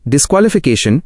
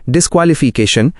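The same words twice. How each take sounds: First: Said in the usual way. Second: डिस्क्वालिफिकेशन sounded out, dis-kwa-li-fee-kay-shan with a long fee; pronunciation model. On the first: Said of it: "उच्चारण मार्गदर्शिका". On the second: Shown as a demonstration. Guide showing learners how to say the word, डिस्क्वालिफिकेशन sounded out by syllables. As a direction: say डिस्क्वालिफिकेशन in distinct syllables, ending on a rise. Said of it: "इन शब्दों को बिल्कुल सही बोलें".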